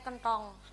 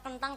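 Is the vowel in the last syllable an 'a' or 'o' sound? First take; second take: o sound; a sound. First: The last syllable has a rounded 'o' vowel. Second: The last syllable has an open 'a' vowel. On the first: This is how people here say it. "cara kene" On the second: This is how the Cilacap dialect says it. "nek cara Cilacap"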